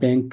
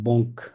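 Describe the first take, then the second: First: It has an English-like 'a' vowel, like 'bank'. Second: It has a nasal 'o' vowel, like 'bonk'. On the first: The speaker calls it wrong. "এটা ব্যাংক হবে না" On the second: The speaker calls it right. "এটা হবে বঙ্ক"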